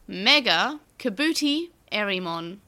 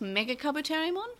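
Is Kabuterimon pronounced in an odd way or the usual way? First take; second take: odd; usual. First: Kabuterimon is pronounced in an unusual way. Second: Kabuterimon is pronounced in the usual way. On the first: This is how the show's narrator said it. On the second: This is the name as fans know it.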